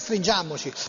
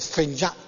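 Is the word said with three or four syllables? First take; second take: four; three. First: The word is said in full, four syllables. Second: The word is shortened to three syllables. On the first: The speaker calls it wrong. "non è stringiamoci" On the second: The speaker calls it right. "l'esatta dizione del testo è stringiamci"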